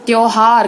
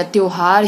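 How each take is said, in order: First: त्योहार with an open "au" in the first syllable; wrong vowel. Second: Said in the usual way. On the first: Shown as a demonstration. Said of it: "गलत हो गया". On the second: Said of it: "शुद्ध है".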